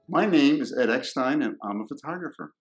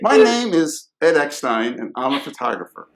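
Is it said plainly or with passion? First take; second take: plainly; with passion. First: It is said plainly, with little passion. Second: It is said with more passion and energy.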